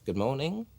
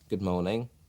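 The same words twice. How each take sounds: First: It is said with lively, added expression. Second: It is said flatly, with little expression.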